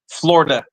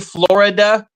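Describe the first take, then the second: First: The middle 'i' syllable is dropped. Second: The middle 'i' syllable is pronounced. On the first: The speaker sounds like a local. The speaker calls it right. "we say it like this. Okay, listen" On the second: The speaker sounds like a tourist. The speaker calls it wrong. "they know you're a tourist right off the bat"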